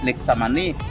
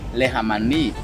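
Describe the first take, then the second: First: The middle consonant is said with the X sound. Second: The middle consonant is said with the J sound. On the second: This is how the name is said today.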